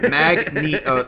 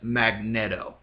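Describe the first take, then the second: First: The middle syllable sounds like 'neat'. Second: The middle syllable sounds like 'net'. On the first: The speaker calls it right. "it's Mag fucking Neato" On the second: The speaker calls it wrong. "he likes to mispronounce the name"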